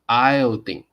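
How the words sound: The last syllable sounds like 'deen'. "如果是 British English it's like iodine"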